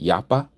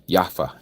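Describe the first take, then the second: First: The middle consonant is a P sound. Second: The middle consonant is an F sound. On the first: "Yapa with a P" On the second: "with the F sound"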